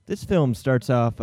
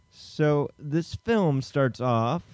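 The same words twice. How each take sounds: First: Slow restart. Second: Slow, drawn-out story opener; dramatic slow lead-in. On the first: Host restarting the recap after the cue, slow. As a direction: restart the lead-in slowly and a bit louder. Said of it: "Hi, hi". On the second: Host starting the plot recap, slow and drawn out. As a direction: stretch it out like a trailer. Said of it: "Hey, Brady, can you give me a". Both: Acted.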